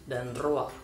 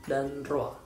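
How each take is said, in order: Both takes have the same delivery.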